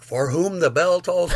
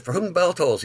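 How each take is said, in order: First: Slow disbelief. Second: "For Whom the Bell Tolls" run together as a single word, higher; all one word. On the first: Teller realizing the song title, "For Whom the Bell Tolls" slow and amazed. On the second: Classmate blurting the song title, "For Whom the Bell Tolls" slurred into one word. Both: Retold or imitated. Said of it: "saying it like it was one word".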